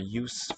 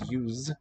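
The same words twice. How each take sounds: First: The word ends in a voiceless s sound. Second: The word ends in a voiced z sound. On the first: It is the noun. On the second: It is the verb.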